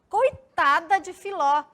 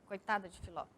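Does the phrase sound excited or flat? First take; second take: excited; flat. First: It is said as a lively, emotional exclamation. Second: It is said as a flat, plain statement. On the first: It shows surprise or strong feeling. "Olha como a exclamação ela já dá esse tom mais" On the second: It simply states a fact. "se fosse só o ponto, uma afirmativa"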